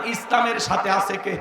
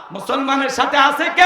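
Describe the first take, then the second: First: Said in the usual way. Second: Rising call with কে stretched out long; rousing question. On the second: Real, not acted. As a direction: throw it to the crowd, lifting and holding কে. Question repeated to rouse crowd.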